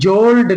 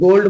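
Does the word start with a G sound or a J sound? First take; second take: J sound; G sound. First: The word begins with a soft j sound. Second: The word begins with a hard g sound. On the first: The speaker calls it wrong. "जोल्ड नहीं बोलेंगे" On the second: The speaker calls it right. "गोल्ड बोलेंगे"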